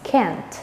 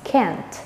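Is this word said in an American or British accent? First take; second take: American; American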